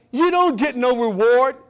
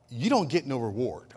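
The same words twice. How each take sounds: First: "You don't get no reward" belted high and loud, slowly drawn out; loud, slow preaching. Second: Said in the usual way. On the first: Shown as a demonstration. Preacher quoting Jesus to the church, loud and slow. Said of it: "Jesus said". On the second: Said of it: "I'm paraphrasing".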